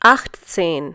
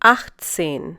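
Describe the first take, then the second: Both takes have the same delivery.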